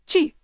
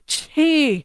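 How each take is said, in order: First: The ch has almost no puff of breath. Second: The ch has a strong puff of breath. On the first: "they say it without much breath" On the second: "we'll go chi like that with a lot of breath"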